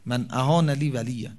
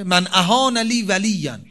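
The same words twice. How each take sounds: First: Said in the usual way. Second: «من اهان لی ولیا» slow, louder, higher, stressing اهان; emphatic recitation. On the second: Shown as a demonstration. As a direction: lean on اهان, slow and loud. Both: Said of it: "چیه؟".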